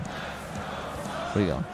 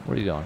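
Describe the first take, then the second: First: "Where are you going?" whispered very slowly and a bit softer; slow teasing whisper; drawn-out whisper. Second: Said in the usual way. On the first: Pretend.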